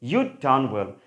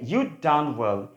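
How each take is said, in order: First: You had is shortened to one syllable. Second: The same.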